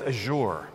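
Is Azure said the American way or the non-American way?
non-American. It is said with the usual non-American pronunciation. "Everyone else says Azure"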